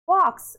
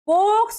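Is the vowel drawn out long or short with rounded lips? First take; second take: rounded; long. First: The vowel is short with rounded lips. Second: The vowel is drawn out long, lips unrounded. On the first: The speaker calls it right. "गोल घूमना चाहिए" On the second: The speaker calls it wrong. "इसको बॉक्स नहीं बोलना है"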